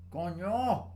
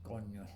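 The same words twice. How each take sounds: First: Coño said high and loud, Spanish ñ. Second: Said in the usual way. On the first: Shown as a demonstration. Explaining Spanish accents on his device, coño shouted high and loud. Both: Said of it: "the accents like".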